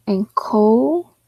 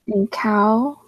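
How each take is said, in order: First: "and coal" with a long o in COAL; "and coal" sounded out, oh in place of ow. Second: "and cow" with COW on the ow vowel; "and cow" sounded out as two syllables, ow in the second. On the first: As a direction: try the second syllable as "coal", slowly. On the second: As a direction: try "cow" as a syllable rhyming with now. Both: Shown as a demonstration. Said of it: "so it could be cow".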